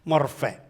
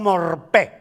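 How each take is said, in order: First: The middle consonant is an F sound. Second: The middle consonant is a P sound. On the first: The speaker calls it right. "creo que se pronuncia F" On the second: The speaker calls it wrong. "o morpé"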